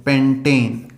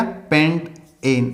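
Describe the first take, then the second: First: पेंटेन blended into one smooth word, lower and falling; joined up. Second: पेंट एन said slowly as two separate parts, पेंट then एन; split into parts. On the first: Teacher to students giving the finished name, smoothly joined. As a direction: run पेंटेन together as a single word. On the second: Teacher building the name for students, slow split syllables. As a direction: slowly sound out पेंट एन with a break between. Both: Shown as a demonstration. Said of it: "क्या बोला गया?".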